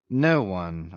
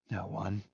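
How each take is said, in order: First: Firm, lower-pitched confirmation; affirming. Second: Very soft, doubtful question. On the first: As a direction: affirm it without hesitation. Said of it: "I affirmed". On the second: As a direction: echo it faintly, unsure whether to believe it. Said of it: "repeated in a tone of doubt". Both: A narrator's reading.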